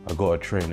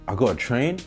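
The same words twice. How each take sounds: First: It sounds reluctant and weary. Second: It sounds eager and excited. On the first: Training is a chore to be endured. The speaker calls it wrong. "rather than saying to yourself, ah, oh" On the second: Training is something to look forward to. The speaker calls it right. "You should get excited by the very prospect of having to go train"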